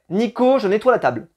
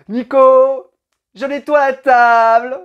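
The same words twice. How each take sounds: First: The words are said at normal length. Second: The vowels, especially the O, are drawn out. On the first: It is just the plain sentence. "ça c'est la phrase qui a été prononcée" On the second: It carries a suggestive intention. "il y a le O comme ça qui est très très long"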